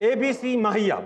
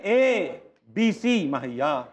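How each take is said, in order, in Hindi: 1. अक्षर बिना रुके एक साथ जुड़े हुए हैं। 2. पहले अक्षर के बाद एक रुकावट है।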